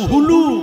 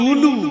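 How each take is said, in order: First: The word begins with an h sound. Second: The word begins directly with a vowel. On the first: The speaker calls it right. "বইয়েতে লেখা আছে হুলু" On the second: The speaker calls it wrong. "আর আমরা বলি উলু। কতটা ভুল দেখেছেন?"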